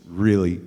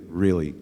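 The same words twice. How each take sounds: The two takes are said the same way.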